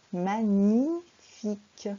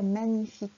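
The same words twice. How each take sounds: First: "magnifique" very slow and loud, syllable by syllable; careful "gn" sound. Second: Quick, run-together "magnifique" as in casual talk; everyday pronunciation. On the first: Teacher showing pupil the proper gn sound, careful pronunciation. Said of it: "mais c'est bien le son mieux". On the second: Teacher showing pupil how people usually say it, everyday pronunciation. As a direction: say "magnifique" briskly, as in conversation. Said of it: "on a tendance à dire magnifique quand on parle". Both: Shown as a demonstration.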